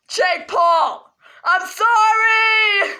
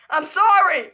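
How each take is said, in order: First: Slow, wailing fake-sob sorry; dragging the sorry out in a hammed-up cry; mock crying. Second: Said in the usual way. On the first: Kid apologising to Jake Paul, slow mock sob.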